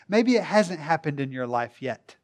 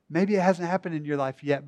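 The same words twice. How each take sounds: First: The word yet gets no special emphasis. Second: The word yet is strongly emphasized.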